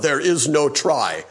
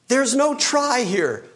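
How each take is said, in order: First: It is said in a Yoda impression. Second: It is said in his normal voice.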